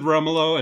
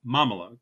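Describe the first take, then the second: First: "Rumolo" starting with an R sound; mispronounced name. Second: "Momolo" starting with an M sound; corrected name. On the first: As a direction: say "Rumolo", R in place of M. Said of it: "I said Rumolo". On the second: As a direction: say "Momolo", M at the front. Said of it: "That doesn't sound right". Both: Shown as a demonstration.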